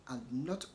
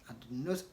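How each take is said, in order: No difference in how they are said.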